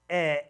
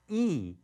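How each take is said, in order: First: The vowel is a short 'eh' sound. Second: The vowel is a long 'ee' sound. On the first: The speaker calls it wrong. "So I wouldn't say s, eh, eh, no way" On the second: The speaker calls it right. "Because I know that E E says E, so I'd say S, E"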